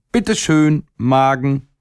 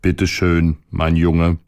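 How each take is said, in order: First: Put-on high, teasing call from a cheeky little boy; esclamazione del ragazzino burlone. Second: Replica dello stomaco. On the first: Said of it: "rief er". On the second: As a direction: answer the boy back without raising pitch. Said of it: "rief der Magen". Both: A narrator's reading.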